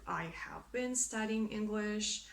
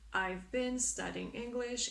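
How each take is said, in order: First: 'I have' is said as two full words. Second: 'I have' is contracted to 'I've'. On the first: "instead of" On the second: "try to make contractions if possible"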